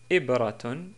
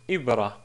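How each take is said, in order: First: The word ends with a full -tun ending. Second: The word ends on a plain -a vowel.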